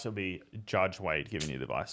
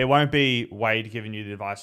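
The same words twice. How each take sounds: First: JUDGE punched, rest softer; stress on JUDGE. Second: WON'T lifted, plain Wade; stress on WON'T. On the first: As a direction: hit the word Judge. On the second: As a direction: lean on won't, just Wade. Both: Shown as a demonstration.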